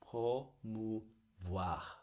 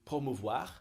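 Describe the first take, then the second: First: The word is said slowly. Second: The word is said fast.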